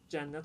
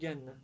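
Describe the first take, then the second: First: It begins with a 'j' sound. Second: It begins with a hard 'g' sound.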